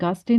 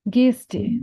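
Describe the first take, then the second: First: The first vowel is an open 'a' sound. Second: The first vowel is an 'e' sound. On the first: The speaker calls it wrong. "गास्टे नहीं करना है इसको" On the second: The speaker calls it right. "ए का साउंड करना है"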